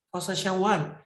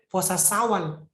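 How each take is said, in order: First: The second word begins with an sh sound. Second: The second word begins with a plain s sound. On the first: The speaker calls it right. "Saya puasa Syawal" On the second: The speaker calls it wrong. "Bukan puasa Sawal"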